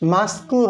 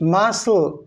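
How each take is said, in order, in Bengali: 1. মাঝখানে k-এর শব্দ উচ্চারিত হয়। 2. c নীরব, কোনো k-এর শব্দ নেই।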